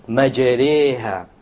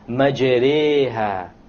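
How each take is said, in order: The two takes are said the same way.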